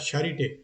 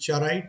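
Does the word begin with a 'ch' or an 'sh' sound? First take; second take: sh; ch. First: It begins with an 'sh' sound. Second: It begins with a 'ch' sound. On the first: The speaker calls it right. "ये है शारिट शारिट अ, शारिटे" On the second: The speaker calls it wrong. "चाराइट नहीं है"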